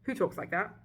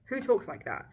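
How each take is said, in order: First: Said in the usual way. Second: Higher, louder disbelief; louder incredulous repeat. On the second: Real, not acted. Ranting about the book's dialogue, louder in disbelief. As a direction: hit it harder the second time.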